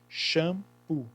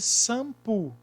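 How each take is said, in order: First: The word begins with a sh sound. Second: The word begins with an s sound. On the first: The speaker calls it right. "O X tem som de C H, por isso que é shampoo" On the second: The speaker calls it wrong. "Tem som de S? Não, porque seria sampo"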